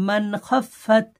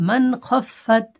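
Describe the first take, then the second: Both takes have the same delivery.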